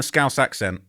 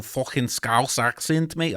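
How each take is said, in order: First: Said in the usual way. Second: Slow, drawn-out stab at a Scouse accent; put-on Liverpool accent, not quite nailed; attempted Scouse accent. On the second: Shown as a demonstration. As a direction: have a rough go at sounding Scouse. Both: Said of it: "I can't do it that well".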